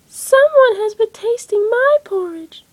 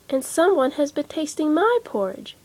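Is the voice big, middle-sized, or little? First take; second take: little; middle-sized. First: It is said in a little baby voice. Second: It is said in a middle-sized voice.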